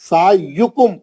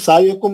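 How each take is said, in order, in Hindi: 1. 'kum' से पहले गोल 'u' सुनाई देता है। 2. 'y' और 'kum' के बीच कोई स्वर सुनाई नहीं देता। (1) "सायुकुम पेश है यार" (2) "सायकुम मत बोलिए यार"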